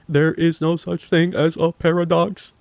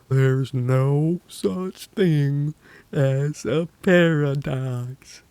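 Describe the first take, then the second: First: It is said at normal speed. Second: It is said slowly.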